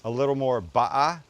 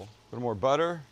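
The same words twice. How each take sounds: First: A light British "ba'a" with dropped t; British accent. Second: Said in the usual way. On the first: Retold or imitated. Imitating British chef Gavin saying "ba'a". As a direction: say "ba'a" like a Brit, no t, no r. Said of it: "Gavin, who's a Brit, says". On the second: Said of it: "Or as our executive chef".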